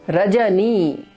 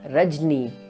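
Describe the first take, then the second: First: The short vowel after the j is pronounced. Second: The short vowel after the j is dropped. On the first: The speaker calls it right. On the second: The speaker calls it wrong.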